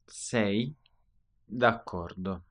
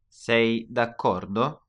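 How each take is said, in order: First: It is said as a statement, falling at the end. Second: It is said as a question, rising at the end.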